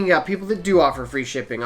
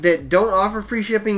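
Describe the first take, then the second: First: "do" pushed as the contrast word; stress on do. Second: "don't" pushed as the contrast word; stress on don't. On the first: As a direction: do stressed, a little lower. Contrasting sellers who do offer. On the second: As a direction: hit don't against do. Contrasting sellers who don't offer. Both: Shown as a demonstration.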